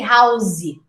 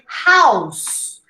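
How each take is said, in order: First: An extra vowel is added after the final consonant. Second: It ends cleanly on the final consonant. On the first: The speaker calls it wrong. "You don't say housey" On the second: The speaker calls it right. "You say house"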